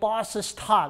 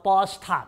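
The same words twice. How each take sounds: First: Both s sounds are said separately. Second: The two s sounds merge into one. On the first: The speaker calls it wrong. "무식하게 버스 스탑 이렇게 하지 마시고" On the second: The speaker calls it right. "바로 버스 스탑 이렇게 들어가시면 돼요"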